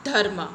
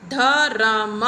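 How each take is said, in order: First: धर्म with half र joined to म, two syllables; correct conjunct pronunciation. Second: धरम with a full vowel between र and म, three syllables; wrong split pronunciation. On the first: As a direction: say it right, धर्म, as dharm. (धर्म को सही ढंग से, आधा र म से जोड़कर) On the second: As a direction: sound the wrong way, धरम, as dha-ram. (धरम को गलत ढंग से, र और म के बीच स्वर डालकर) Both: Shown as a demonstration. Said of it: "ह और र एक साथ आते हैं".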